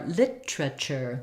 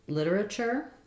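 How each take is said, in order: First: Three syllables, reduced, in a British accent. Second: Four syllables with a flapped t, American accent. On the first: "British more literature ... they reduce to three syllables" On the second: "in American English, ... all four syllables ... we make this one into a flap"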